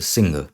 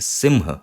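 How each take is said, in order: First: The nasal sound is pronounced like an 'n'. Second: The nasal sound is pronounced like an 'm'. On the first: The speaker calls it wrong. "इसको भी हर कोई सिंह ही बोलता है, ऐसे सिंह" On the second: The speaker calls it right. "सिंह ये है इसका सही उच्चारण"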